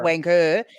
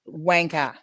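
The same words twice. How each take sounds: First: The word ends with an 'er' sound. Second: The word ends with an 'ah' sound. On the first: The speaker calls it wrong. "so that's actually not" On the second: The speaker calls it right. "we don't say er, we say ah"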